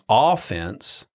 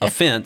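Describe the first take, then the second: First: The stress is on the first syllable. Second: The stress is on the second syllable. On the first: It names the attacking side in a sport. The speaker calls it wrong. "I was saying it wrong. I was saying offense. He was saying that's what you do when you're playing football" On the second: It means a feeling of being hurt or insulted. The speaker calls it right. "This is offense"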